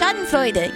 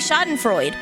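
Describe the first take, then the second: First: The final E is pronounced, with a soft D. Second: The final E is silent, with a hard D. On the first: The speaker calls it right. "it's not a hard D. It's Schadenfreude. You pronounce the E" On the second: The speaker calls it wrong. "when you say it in English, people say Schadenfreude"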